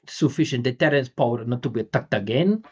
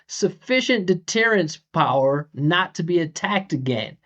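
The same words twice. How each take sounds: First: Flat pitch, crisp consonants, little vowel length. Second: Varied pitch, with stressed and lengthened vowels.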